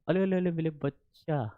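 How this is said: It is said in a cooing baby-talk voice.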